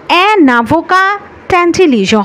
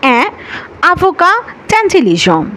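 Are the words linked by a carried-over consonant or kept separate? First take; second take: linked; separate. First: A consonant sound links the words together. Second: The words stay separate with no linking consonant. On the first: The speaker calls it wrong. "হবে না। যদি আপনি বলেন সেটা ভুল হয়ে যাবে" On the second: The speaker calls it right. "আপনাকে বলতে হবে"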